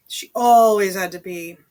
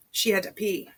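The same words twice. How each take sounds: First: Always punched out loud; stress on always. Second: Said in the usual way. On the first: A narrator's reading. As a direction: lean hard on always. Repeated line with emphasis.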